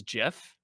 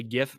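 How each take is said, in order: First: Gif said like "jiff"; soft G. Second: Gif with G as in "gift"; hard G. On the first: Debating pronunciation, gif said as "jiff". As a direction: say gif with a J sound. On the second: Debating pronunciation, gif said with a hard G. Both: Shown as a demonstration. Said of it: "do you say gif versus gif".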